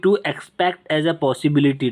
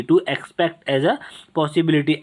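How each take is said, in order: First: Slow dictation. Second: "to expect as a" drawn out word by word, then "possibility"; very slow repeat. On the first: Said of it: "मतलब कि". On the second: Teacher repeats the definition very slowly for students to note. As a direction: spell out "to expect as a" very slowly for the class. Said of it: "मतलब कि to expect as a possibility". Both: Shown as a demonstration.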